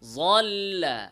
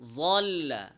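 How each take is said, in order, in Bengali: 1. প্রথম ব্যঞ্জনটি j-এর মতো শোনায়। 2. প্রথম ব্যঞ্জনটি j-এর মতো শোনায়।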